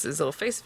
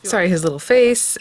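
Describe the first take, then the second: First: Dropped almost to nothing; muttered under the breath; mumbled. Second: Said in the usual way. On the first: Real, not acted. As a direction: trails off, barely audible.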